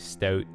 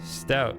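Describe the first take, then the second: First: It is said in a Canadian accent. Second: It is said in a plain accent.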